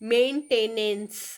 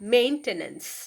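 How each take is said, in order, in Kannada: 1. ಒತ್ತು ನಂತರದ ಅಕ್ಷರದ ಮೇಲೆ ಬೀಳುತ್ತದೆ. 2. ಒತ್ತು ಮೊದಲ ಅಕ್ಷರದ ಮೇಲೆ ಬೀಳುತ್ತದೆ. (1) "ಇಟ್ಸ್ ನಾಟ್ ಮೇಂಟೆನೆನ್ಸ್ ಅಲ್ಲ" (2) "ಸ್ಟಾರ್ಟಿಂಗ್ ಮೇನ್ಗೆ ನಾವು ಜಾಸ್ತಿ ಒತ್ತು ಕೊಡಬೇಕು"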